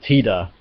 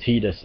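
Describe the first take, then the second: First: The name ends without an s sound. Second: The name ends with an s sound. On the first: "Tida is the correct pronunciation" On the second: "Tidus is the acceptable alternative"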